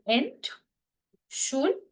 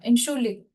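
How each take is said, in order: First: It is said slowly, syllable by syllable. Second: It is said fast, as one smooth word.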